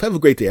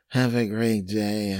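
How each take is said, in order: First: It sounds warm and sincere. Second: It sounds flat and insincere.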